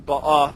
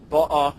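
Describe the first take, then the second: First: Ba'a stressed on the last syllable; accent milra. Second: Ba'a stressed on the first syllable; accent mila'el. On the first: Teacher showing the present tense, ba'a stressed on last syllable. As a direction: hit the final A in ba'a. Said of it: "when you have the accent". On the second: Teacher showing the past tense, ba'a stressed on first syllable. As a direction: hit the BA in ba'a. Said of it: "have the accent mila'el". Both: Shown as a demonstration.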